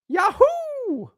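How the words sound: It is said in a Mario impression voice.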